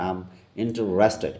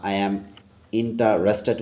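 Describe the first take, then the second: First: "I am" is squeezed into one short syllable. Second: "I am" is said as two full words. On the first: The speaker calls it right. "Right প্রনাউন্সিয়েশনটা হবে" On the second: The speaker calls it wrong. "আই অ্যাম interested বলে থাকি"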